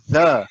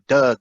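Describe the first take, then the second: First: The word begins with a th sound. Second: The word begins with a d sound. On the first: The speaker calls it right. "oh, you're right" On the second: The speaker calls it wrong. "y'all saying D. Is like duh"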